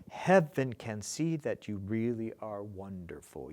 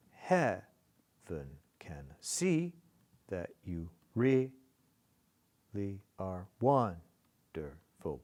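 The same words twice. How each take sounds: First: Said in the usual way. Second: Slow, broken up, weight on "Heaven", "see", "really", "wonderful"; marking the accents. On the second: Shown as a demonstration. Teacher marking the accents, slow dactylic beat. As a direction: pause between beats, stressing the first syllables of "Heaven", "really", "wonderful". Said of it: "You want to mark the accents?".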